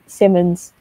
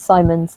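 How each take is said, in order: First: The first syllable sounds like 'sim'. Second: The first syllable sounds like 'sigh'. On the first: The speaker calls it wrong. "A lot of people say Simmons, uh, but it's not" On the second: The speaker calls it right. "It's Simons, like Simon Cowell"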